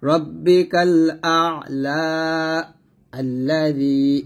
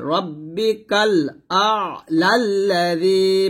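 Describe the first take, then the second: First: রব্বিকাল আ'লা held long, a stop, then আল্লাযী begun fresh; slow chant of রব্বিকাল আ'লা, break, then আল্লাযী; pause and restart. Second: রব্বিকাল আ'লাল্লাযী slow and drawn, lam joined straight on without a stop; রব্বিকাল আ'লাল্লাযী chanted slowly as one joined phrase; joined reading. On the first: Teacher showing stopping in recitation, slow chanted break. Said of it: "আর থামলে এখানে বলবো". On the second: Teacher demonstrating Quran recitation to students, slow joined chant. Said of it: "তো যদি আমরা মিলায় পড়ি". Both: Shown as a demonstration.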